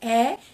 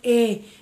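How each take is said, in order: First: The letter is said in a Northeastern Brazilian accent. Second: The letter is said in a Southern Brazilian accent. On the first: "Aqui no Nordeste a gente chama a letrinha E" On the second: "em outras regiões, lá do Sul, Sudeste, chama E"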